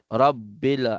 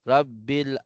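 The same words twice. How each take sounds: The two takes are said the same way.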